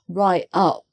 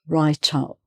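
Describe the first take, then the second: First: The T is dropped, leaving a break. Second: The T is pronounced and linked to the vowel. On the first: The speaker calls it wrong. "with the T missing" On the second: The speaker calls it right. "run the two words together"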